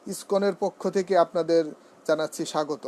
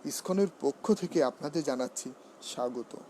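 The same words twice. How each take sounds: First: পক্ষ with an open vowel, "pawkkho"; wrong pronunciation. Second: পক্ষ with a closed o, "pokkho"; correct pronunciation. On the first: Teacher mimicking a faulty welcome on ISKCON's behalf, open-vowel "pawkkho". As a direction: say পক্ষ with "aw" in the first syllable. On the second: Teacher modelling the welcome on ISKCON's behalf, closed-o "pokkho". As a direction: round the first vowel of পক্ষ to "o". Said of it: "পক্ষ বলবো". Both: Shown as a demonstration.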